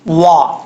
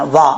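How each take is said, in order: First: The word is said with rounded lips. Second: The word is said with unrounded lips. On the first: The speaker calls it right. "वाओ को पढ़ते वक्त होंठ गोल करेंगे।" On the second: The speaker calls it wrong. "इसको वा नहीं पढ़ना, वा गलत है।"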